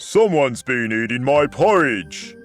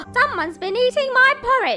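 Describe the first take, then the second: First: It is said in a deep growl. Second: It is said in a loud bellow.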